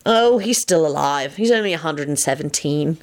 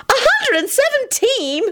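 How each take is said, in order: First: Understated wry reply; lightly dry, offhand answer. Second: Very high, drawn-out shriek; slow, high-pitched incredulous repeat; disbelieving screech. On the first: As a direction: state it as no great matter. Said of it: "Lupin replied wryly". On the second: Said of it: "Elizabeth screeched disbelievingly". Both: A narrator's reading.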